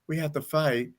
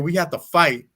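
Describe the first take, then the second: First: It is said flatly, without emotion. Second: It is said with strong emotion.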